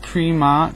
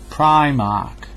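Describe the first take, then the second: First: The first syllable does not rhyme with 'prime'. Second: The first syllable rhymes with 'prime'. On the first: The speaker calls it wrong. "not Primark" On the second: The speaker calls it right.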